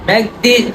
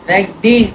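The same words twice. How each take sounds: The two takes are said the same way.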